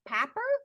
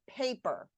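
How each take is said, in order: First: The first vowel is short, as in cat. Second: The first vowel is long, as in cake. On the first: The speaker calls it wrong. "Is that pap" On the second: The speaker calls it right. "it's paper"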